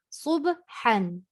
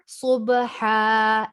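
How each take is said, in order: First: The word ends with an n sound. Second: The word ends with an a vowel. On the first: The reader continues past the word. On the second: The reader stops on the word.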